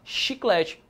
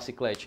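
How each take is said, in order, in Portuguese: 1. A palavra começa com som de sh. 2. A palavra começa com som de s. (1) "Eu tenho que falar chiclete" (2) "Não dá para falar ciclete"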